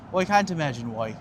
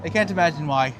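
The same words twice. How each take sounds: First: Hammed-up Irish lilt; put-on Irish brogue for a laugh; mock Irish accent. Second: Said in the usual way. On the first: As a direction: do a jokey, bad Irish accent. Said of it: "Me and my flawless Irish accent".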